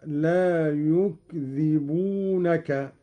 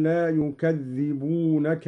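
First: "يكذبونك" slowly as yukdhibunaka, silent-vowel kaf, single dhal; no vowel on the kaf, undoubled dhal in "يكذبونك"; lightened dhal. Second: Said in the usual way. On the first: Shown as a demonstration. Teacher demonstrating Qalun, "يكذبونك" slowly as yukdhibunaka. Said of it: "قرأ قالون بالتخفيف هكذا".

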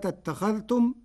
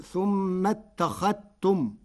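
First: Said in the usual way. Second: "ثم اتخذتم" slowly, as thummattakhattum; no dh in "ثم اتخذتم", a doubled t instead; dhal merged into ta. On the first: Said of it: "قرأ ورش كلمة". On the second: Shown as a demonstration. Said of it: "بإدغام الذال في التاء".

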